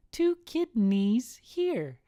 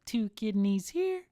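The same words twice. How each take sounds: First: Put-on high, slow, drawn-out child voice; little kid punchline. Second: Lightly voiced child, higher pitch; little kid. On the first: Son delivers the punchline, slow high kid voice. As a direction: stretch it out slowly as a kid. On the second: Son points to his belly, high kid voice. Kid's joke answer, first take.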